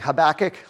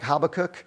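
First: The name has a familiar English pronunciation. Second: The name has a Hebrew-like pronunciation. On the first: This is the way most people learned to say it. "I grew up saying Habakkuk" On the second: This is closer to the original language. "the proper pronunciation is something more like Habakkuk"

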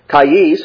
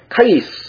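First: The word is said with two clear syllables. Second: The word is squeezed into nearly one syllable. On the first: This is the standard pronunciation. "the two-syllable word" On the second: This is the northern dialect pronunciation. "was pronounced almost as one syllable"

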